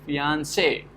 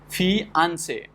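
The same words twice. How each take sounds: First: The stress is on the final syllable. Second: The stress is on the second syllable. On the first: "so say is getting stressed" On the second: "where the second syllable is getting stressed"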